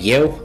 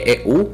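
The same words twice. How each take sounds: First: It starts with a y-like glide before e. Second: It starts with a plain e vowel. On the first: "se citește eu, aici avem triftong" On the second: "Se scrie eu"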